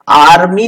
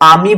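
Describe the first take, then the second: First: The r sound after the vowel is pronounced. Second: The r sound after the vowel is silent. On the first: The speaker calls it wrong. "आर्मी नहीं बोलते इसको" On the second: The speaker calls it right. "इसका आर silent रहता है"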